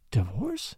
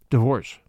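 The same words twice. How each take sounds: First: Soft, dry echo of divorce? with a rising lilt; divorce? repeated quietly, lightly mocking her shock. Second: Stunned, half-afraid to say the word divorce?; divorce? dropped low and loud as if it were unthinkable; shocked question. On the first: Father echoing his daughter's shocked word, dry. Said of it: "You say that word". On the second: Daughter hearing her father suggest divorce, shocked. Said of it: "You say that word ... never heard it before". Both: A narrator's reading.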